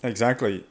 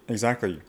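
No difference in how they are said.

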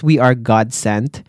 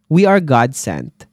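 First: "we" hit first, slow, ending with a rise; stress on WE. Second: "are" leaned on, falling at the end; stress on ARE. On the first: Nurse repeating her claim, stress on "we". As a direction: put the weight on "we" in "we are God sent". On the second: Nurse insisting to viewers, stress on "are". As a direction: press on the word "are" in "We are God sent". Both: Shown as a demonstration.

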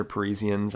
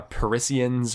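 First: "Parisians" said puh-REE-zee-ans, with long ee and z; alternative pronunciation. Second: "Parisians" said puh-RISS-ee-ans, with short i and s; trying out a pronunciation. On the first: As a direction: say "Parisians" with a buzzed z in the middle. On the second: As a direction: say "Parisians" with a hissed s in the middle. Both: Shown as a demonstration. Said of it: "I'm gonna say Pari".

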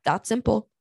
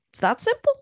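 First: Said in the usual way. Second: 2 swoop up high on "simple"; 3 repeat it much higher, "simple" rising; 4 "It's that simple" leaping high with a rising end; 1 emphatic repeat. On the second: Real, not acted.

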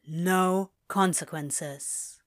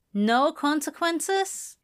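First: Slow, falling confirmation; confirming answer. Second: High, slow, rising question; questioning echo. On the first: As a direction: confirm it very slowly, letting it drop. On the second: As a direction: echo it slowly, pitched up in wonder. Girl echoes it as a question. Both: Acted.

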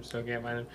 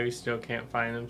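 First: Much softer, trailing away; fading repeat. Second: Said in the usual way. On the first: Real, not acted. Waiting at the bar, he quietly repeats it. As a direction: let the repeat die off, weary.

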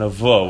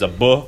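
First: V said as its sound, not its name; lighter V sound. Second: "B" as a hard "buh"; B said as its sound, not its name; emphasized B sound. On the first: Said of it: "considered a lighter version". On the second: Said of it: "the emphasized version and the light version". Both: Shown as a demonstration.

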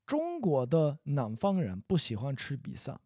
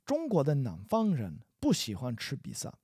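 The two takes are said the same way.

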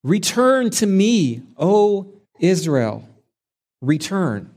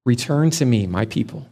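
First: Slow, higher, pleading call; God calling his straying people home, slow and pleading. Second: The Father's voice. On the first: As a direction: hold out your hands and plead, slowly. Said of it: "pleading with them". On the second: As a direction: offer it gently, without raising it. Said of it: "we hear the Father's voice". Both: Acted.

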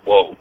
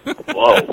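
First: Low, drawn-out stoner whoa; a lightly voiced surfer-dude whoa; Keanu Reeves whoa. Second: Said in the usual way. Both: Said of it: "this Keanu Reeves scale".

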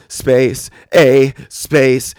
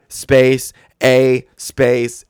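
No difference in how they are said.

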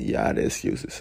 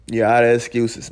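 First: Breathy whispered repeat, much softer and lower; whispered echo. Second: Said in the usual way. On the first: Shown as a demonstration. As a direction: whisper the line back like an echo. Echoing his own line as aside.

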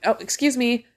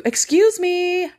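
First: Said in the usual way. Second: High, loud, drawn-out mock-polite call; sing-song. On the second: Shopper to blockers who won't move, pointedly sing-song. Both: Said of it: "you have to get all fucking sing-song with it".

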